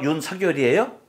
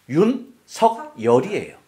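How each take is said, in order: First: The consonant links into the next syllable. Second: Each syllable is pronounced separately and clearly. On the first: The speaker calls it wrong. "둘 다 아니란 얘기예요" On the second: The speaker calls it right. "윤석열이에요. 그렇잖아요"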